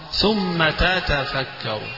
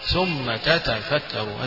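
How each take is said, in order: No difference in how they are said.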